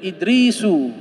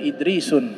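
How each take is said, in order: First: The name ends in a plain u vowel. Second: The name ends in un with an n. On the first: The speaker calls it right. "Kemudian Idrisu" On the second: The speaker calls it wrong. "bukan Idrisun"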